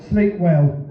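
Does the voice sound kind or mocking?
mocking. It sounds sneering and mockingly cruel. The inner voice is taunting. "mine's not quite so encouraging"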